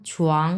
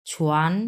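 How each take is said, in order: First: ছুয়াং from low, closed on "ng"; second tone, "ng" ending. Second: ছুয়ান rising from low, closed on "n"; second tone, "n" ending. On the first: Teacher contrasting two words, ছুয়াং with final "ng". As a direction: end ছুয়াং at the back on "ng". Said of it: "এই যে জি লাস্টেরটা". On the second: Teacher contrasting two words, rising ছুয়ান with final "n". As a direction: end ছুয়ান on a clean "n". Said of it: "ছুয়ান আর ছুয়াংয়ের মধ্যে একটাই পার্থক্য". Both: Shown as a demonstration.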